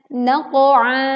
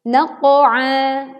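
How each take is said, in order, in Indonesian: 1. Gema qaf itu berat, mengarah ke o. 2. Gema qaf itu berat, mengarah ke o.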